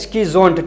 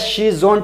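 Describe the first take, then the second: First: The word begins with an 'sk' sound. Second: The word begins with an 'sh' sound. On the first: The speaker calls it right. "सही pronunciation है इसका स्कीज़ोन्ट" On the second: The speaker calls it wrong. "शीज़ोन्ट भी बोला जाता है"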